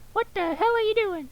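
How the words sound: The voice is high and shrill with irritation. The speaker calls it right. "he's the guy with the high voice"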